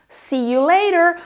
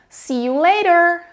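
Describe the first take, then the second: First: It has an American accent with a flapped T. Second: The same.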